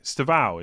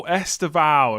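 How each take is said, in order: First: "Stevao" with no opening vowel; silent E. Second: "Estevao" with the opening E sounded; E pronounced. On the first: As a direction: start "Stevao" straight on the St-. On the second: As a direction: say "Estevao" starting on a clear Es-. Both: Shown as a demonstration. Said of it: "you don't pronounce the E".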